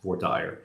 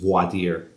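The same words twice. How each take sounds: First: It is pronounced the Texas way. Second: It is pronounced the usual, standard way.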